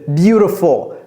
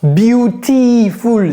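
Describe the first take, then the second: First: The middle vowel is a short English i. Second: The middle vowel sounds like a French i. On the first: The speaker calls it right. "c'est beautiful, de, de, de" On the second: The speaker calls it wrong. "Ce n'est pas beautiful"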